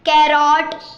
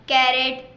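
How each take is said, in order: First: The second syllable has a full 'rot' vowel. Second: The second syllable has a reduced 'ret' vowel. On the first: The speaker calls it wrong. "ज़्यादातर लोगों में ऐसे ही कै बंदे बोलते हैं" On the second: The speaker calls it right. "ऐसे।"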